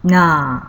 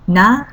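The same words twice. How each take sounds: First: The vowel is held twice as long. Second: The vowel is held briefly.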